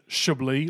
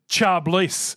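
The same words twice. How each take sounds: First: The word is pronounced like the French wine. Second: The word is pronounced unlike the French wine. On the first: It names the wine region. "like the French wine region" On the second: It is how the girl herself says her name. "but Chablis"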